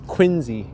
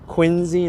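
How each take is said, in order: First: The middle consonant is a Z sound. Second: The same.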